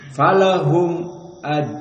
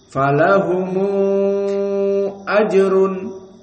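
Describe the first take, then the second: First: The m ends the word with no vowel. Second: The m is followed by a linking u vowel. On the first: This is the majority reading. "Idhar asy-syafawi. Idan yuqra falahum aj" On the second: This is the reading of Warsh from Nafi'. "ju'ila al-mim dhammah. Maka dibaca falahumu ajrun"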